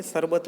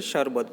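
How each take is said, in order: First: शरबत with a plain s, sar-bat, slightly raised; teacher again showing the wrong s in शरबत; wrong s sound. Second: शरबत with a clear sh, shar-bat; teacher modelling the right sh in शरबत again; correct sh sound. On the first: Teacher warns pupils off the wrong s in शरबत. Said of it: "शरबत नहीं बोलेंगे". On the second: Teacher shows pupils the correct sh in शरबत. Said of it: "शरबत बोलेंगे". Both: Shown as a demonstration.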